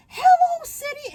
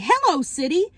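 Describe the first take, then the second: First: Chipper greeting. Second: Said in the usual way. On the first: Retold or imitated. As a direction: greet the city like a cheerful cartoon.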